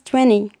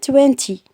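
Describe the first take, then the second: First: The middle T sound is dropped. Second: The middle T sound is clearly pronounced.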